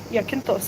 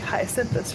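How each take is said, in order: First: The name is said the local Greek way. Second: The name is said the American English way. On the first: "but it's Iakinthos here" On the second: "American English, we, we say Hyacinthus"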